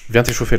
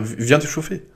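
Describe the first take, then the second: First: It sounds blunt, curt and commanding. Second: It sounds soft, hesitant and coaxing. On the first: The request is a bossy order. "Comme ça" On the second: The request is gentle and almost pleading. "Mais pas d'un air en mode"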